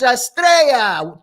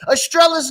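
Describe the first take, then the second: First: The double L is said as a Y sound. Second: The double L is said as an L sound. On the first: The speaker calls it right. "Two L's make a Y sound" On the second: The speaker calls it wrong. "Estrella's not the way you say that either"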